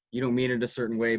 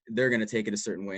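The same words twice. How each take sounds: First: "mean" stressed against "take". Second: "they're" stressed and contrasted. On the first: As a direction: lean on "mean". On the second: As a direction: open the line by hitting "they're". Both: Shown as a demonstration.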